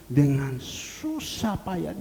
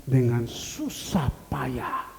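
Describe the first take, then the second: No difference in how they are said.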